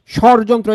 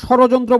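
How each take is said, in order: First: Said in the usual way. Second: স্বরযন্ত্র with an extra o after the r, "shoro-jontro"; স্বরযন্ত্র with an added middle vowel; mispronunciation shown. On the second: Shown as a demonstration. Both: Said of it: "এটা আবার স্বরযন্ত্র বললেন না".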